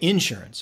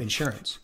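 First: It is said the Southern US way. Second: It is said the speaker's standard way.

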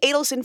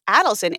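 First: The name does not begin with 'add'. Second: The name begins with an 'add' sound. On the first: The speaker calls it wrong. "We've been saying Adelson for years. Embarrassed" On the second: The speaker calls it right. "the Times obit said it was Adelson, A-D-D-L-E, like they pronounce it like that"

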